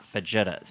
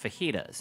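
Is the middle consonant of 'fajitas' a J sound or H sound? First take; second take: J sound; H sound. First: The middle consonant is a hard J sound. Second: The middle consonant is a breathy H sound. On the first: The speaker calls it wrong. "they're not fajitas" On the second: The speaker calls it right. "They're pronounced fajitas"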